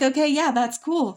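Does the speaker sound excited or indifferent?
excited. The tone is lively and enthusiastic. The idea now seems genuinely appealing.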